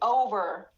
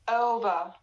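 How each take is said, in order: First: The first vowel is fully rounded throughout. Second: The first vowel starts unrounded, then rounds. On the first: "in the American accent, they say over" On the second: "It starts with a uh like this. We you don't round your lips"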